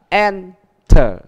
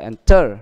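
First: The stress is on the first syllable. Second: The stress is on the second syllable. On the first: The speaker calls it right. "âm nhấn được đặt ở âm đầu" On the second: The speaker calls it wrong. "không phải enter"

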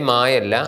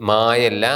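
The two takes are said the same way.

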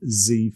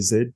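First: The letter is said the North American way, zee. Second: The letter is said the Australian way, zed.

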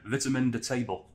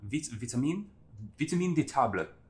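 First: It is said in a Yorkshire accent. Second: It is said in a put-on French accent. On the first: "Or in Yorkshire" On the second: "something vaguely French sounding"

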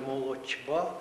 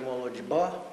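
First: The consonant before б is voiceless. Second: The consonant before б is voiced. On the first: "хоч би як ви намагалися сказати" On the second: "ви скажете"

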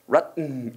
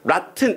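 First: The t becomes a glottal stop before the n. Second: The t is fully released before the n. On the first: The speaker calls it right. "T는 성대만 울리는 발음을 해" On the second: The speaker calls it wrong. "이게 아니라"

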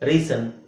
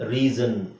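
First: The middle consonant is an s sound. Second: The middle consonant is a z sound. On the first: The speaker calls it wrong. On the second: The speaker calls it right.

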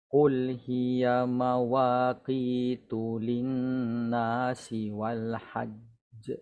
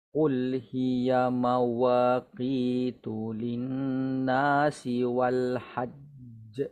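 Both takes have the same delivery.

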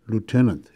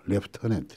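First: The word is said without an f sound. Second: The word is said with an f sound. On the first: "미군에서는 lieutenant 이렇게 합니다" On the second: "그런데 F가 들어갑니다. 영어에서"

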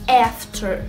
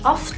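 First: The first vowel is a wide open English vowel. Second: The first vowel sounds Arabic-accented. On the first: The speaker calls it right. "لا after" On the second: The speaker calls it wrong. "مش after"

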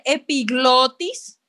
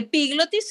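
First: The stress is on the second-to-last syllable, glo. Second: The stress is on the third-to-last syllable, pi. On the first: The speaker calls it right. "se dice epiglotis" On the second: The speaker calls it wrong. "No es una palabra esdrújula. Vean que no tiene tilde, por lo tanto no se dice epiglotis"

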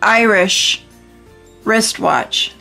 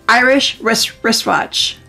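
First: The phrase is said slowly and carefully. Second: The phrase is said quickly several times. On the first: The speaker calls it wrong. "You can't just go Irish wristwatch. See, I can say it" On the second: The speaker calls it right. "you have to say it quickly"

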